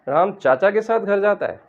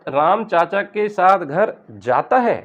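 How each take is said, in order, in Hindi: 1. शब्द "चाचा" पर स्ट्रेस है। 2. शब्द "जाता" पर स्ट्रेस है। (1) "अगर हम चाचा पर स्ट्रेस देंगे" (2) "यानी जाता है, मैंने तो नहीं सुना था जाता है"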